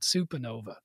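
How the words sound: It is said in a Boston accent. The speaker calls it wrong. "I develop a Boston accent and call it Supernova"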